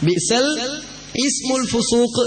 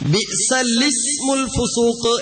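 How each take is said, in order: First: The 'i' of 'ismu' is sounded as a separate vowel. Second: The 'i' of 'ismu' is dropped into 'lismu'. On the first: The speaker calls it wrong. "നമ്മളൊക്കെ ഓതാറുള്ളത് തെറ്റായിട്ടാണ്" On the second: The speaker calls it right. "ഓതേണ്ടത് യഥാർത്ഥത്തിൽ"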